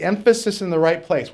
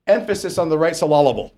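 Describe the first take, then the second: First: Said in the usual way. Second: Joking wrong-syllable stress on "emphasis" and "syllable"; Pastor Andre's misplaced stress. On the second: Retold or imitated. Preacher quoting a pastor's old saying, playfully misplaced stress on "emphasis" and "syllable". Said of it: "or however Pastor Andre used to say it".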